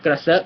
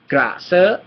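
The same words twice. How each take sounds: First: The word is said at a faster pace. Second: The word is said at a slower pace.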